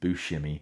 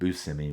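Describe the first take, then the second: First: The name has an Italian pronunciation. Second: The name has a non-Italian pronunciation. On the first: This is how most people say it. The speaker calls it right. "Most people pronounce it Steve Buscemi, and that's the correct way to say it in Italian" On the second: This is how the named person prefers it. The speaker calls it wrong. "he likes to be called Steve Buscemi, which is kind of kind of weird sounding to me"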